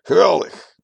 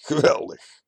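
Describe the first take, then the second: First: A much higher, much louder, jubilant "Geweldig"; laughing, exuberant. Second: Higher "Geweldig" with a cold edge; a mild menacing cheer; laughing, still stern. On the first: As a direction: burst out with delight. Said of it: "De terrasbioloog lacht en zegt". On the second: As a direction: laugh it out while staying hard. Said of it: "Zonder van blik te veranderen lacht hij". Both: A narrator's reading.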